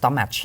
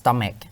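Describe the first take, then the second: First: The word ends with a ch sound. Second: The word ends with a k sound. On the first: The speaker calls it wrong. "ลงท้ายด้วย ch เหมือนกันแต่มันไม่ได้อ่านว่า" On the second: The speaker calls it right. "แต่จริงๆมันอ่านว่า"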